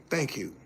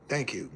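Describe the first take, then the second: No difference in how they are said.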